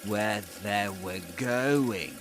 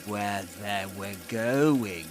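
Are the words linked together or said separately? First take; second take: linked; linked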